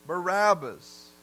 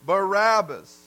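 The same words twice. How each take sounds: First: Drawn out, weighing the name; slow down and let the name hang; slow heavy repeat. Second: Called out loud like a mob; mock mob shout; crowd shouting a name. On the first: Acted. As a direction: somber slow echo. Preacher repeats crowd's answer. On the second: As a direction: shout the name back at the governor. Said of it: "And they said".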